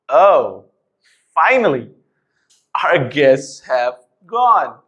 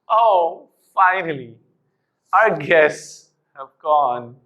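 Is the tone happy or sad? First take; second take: happy; sad. First: It is said in a happy tone. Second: It is said in a sad tone. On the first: "it was very easy to say it in a happy tone" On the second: "in a sad tone done"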